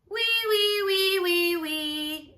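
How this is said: The voice sounds flat and very nasal.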